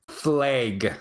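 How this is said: The A is a very hard Wisconsin vowel. "In Wisconsin, it's flag. It's a very hard A"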